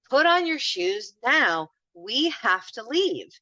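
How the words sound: The request sounds stern and exasperated.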